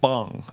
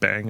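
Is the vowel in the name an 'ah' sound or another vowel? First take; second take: ah; another vowel. First: The vowel is an open 'ah' sound. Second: The vowel is not an 'ah' sound. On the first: "I thought it was like an ah sound" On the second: "as opposed to like bang"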